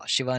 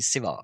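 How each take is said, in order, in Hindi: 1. यह शब्द sh ध्वनि से शुरू होता है। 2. यह शब्द s ध्वनि से शुरू होता है। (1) "शिवा नहीं"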